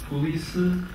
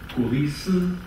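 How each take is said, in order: First: It is three syllables, each with a vowel. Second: It is three syllables, each with a vowel.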